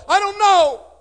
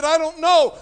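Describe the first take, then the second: First: Even higher, strained and loudest; breaking desperate cry. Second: Cried out, high and loud; desperate reply. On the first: [name] answering his brother again, voice cracking. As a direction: let the voice crack in helpless panic. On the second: [name] answering his little brother, desperate cry. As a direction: answer in helpless panic. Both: Retold or imitated. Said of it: "I said".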